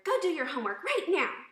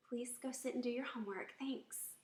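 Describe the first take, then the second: First: Loud, high shouted order; angry yell. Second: Put-on polite, gentle request to a child; pleasant tone. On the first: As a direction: order a child about at full volume. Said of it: "Notice my tone of voice". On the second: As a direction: ask kindly, no edge. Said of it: "See the difference in the tone of voice". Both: Shown as a demonstration.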